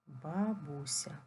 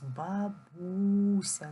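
First: Slow, syllable by syllable "Бабуся"; "Бабуся" stretched out for writing down; slow dictation. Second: "Бабуся" with a long, loud БУ; very slow "бабУУся", second syllable drawn out and louder; stress demonstration. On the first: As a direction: dictate "Бабуся" slowly, each syllable drawn out. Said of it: "запишіть з великої букви слово бабуся". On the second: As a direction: call out "Бабуся", holding the stressed у. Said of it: "Поставимо наголос". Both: Shown as a demonstration.

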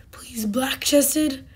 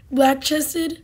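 First: Whispered plea. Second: Said in the usual way. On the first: Real, not acted. Hoping for a rare pheasant.

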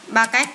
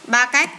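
The two takes are said the same way.

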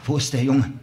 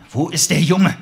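First: Said in the usual way. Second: Shouted high and loud; demanding shout. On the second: Acted. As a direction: yell the question at him. Detective demands answer again.

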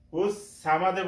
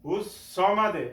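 First: সামাদে with a thin S and open "saa"; common mistake. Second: সামাদে with a thick, rounded "saw" for sad; correct heavy S. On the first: Retold or imitated. Teacher imitates the mistake many people make, light S. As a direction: flatten সামাদে to a light "saamad". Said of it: "অনেকেই ভুল করে". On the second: Shown as a demonstration. Teacher models the right reading before the mistake, heavy S. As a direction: say সামাদে as "sawmad", full-mouthed S. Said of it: "এখানে অনেকেই ভুল করে".

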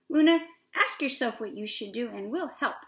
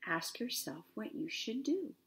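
First: Brighter, louder encouraging fish; eager storybook helper voice; roundest fish. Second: Soft, measured, inward-looking quote; gentle storybook moon voice; Luna the moon. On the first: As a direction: urge her on with energy. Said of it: "The roundest fish asked". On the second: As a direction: say it quietly, like remembered advice. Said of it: "She said". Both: A narrator's reading.

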